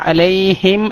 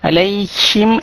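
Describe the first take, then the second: First: The h is soft and comes from the throat. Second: The h is harsh and scrapes in the mouth. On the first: The speaker calls it right. "അലൈഹിം എന്നാണ്" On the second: The speaker calls it wrong. "അലൈഹിം എന്ന് വരരുത്"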